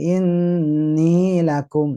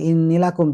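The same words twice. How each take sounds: First: The final vowel of inni is held long. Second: The final vowel of inni is cut short. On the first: The speaker calls it right. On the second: The speaker calls it wrong. "nggak boleh"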